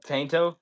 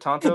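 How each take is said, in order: First: The first vowel sounds like 'ay'. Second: The first vowel sounds like 'ah'. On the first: The speaker calls it wrong. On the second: The speaker calls it right. "It is pronounced Tonto"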